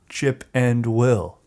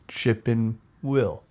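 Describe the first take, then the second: First: It is said slowly with 'and' said fully. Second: It is said fast with 'and' reduced.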